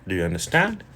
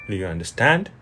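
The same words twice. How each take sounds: Both takes have the same delivery.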